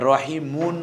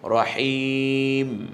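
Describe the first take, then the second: First: The word ends with an added un sound. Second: The word ends on the bare m consonant. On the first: The speaker calls it wrong. "রহিমুন বলছি না" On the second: The speaker calls it right. "বলছি কি রহিম"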